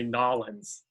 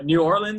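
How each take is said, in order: First: The name is squeezed into two short syllables. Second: The name is said in full with all syllables. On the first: This is how locals say it. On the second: This is how outsiders usually say it.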